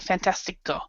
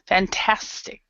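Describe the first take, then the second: First: The word ends with an added vowel sound. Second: The word ends with a consonant sound. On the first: The speaker calls it wrong. "We wouldn't say fantastico" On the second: The speaker calls it right. "That's how you pronounce it"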